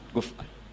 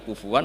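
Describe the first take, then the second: First: The middle consonant is a glottal stop. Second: The middle consonant is a w sound. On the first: "Kafa'ah kuf'an itu mahmus lam" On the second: "Kalau dibaca wawu"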